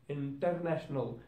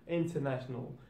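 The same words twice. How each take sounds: No difference in how they are said.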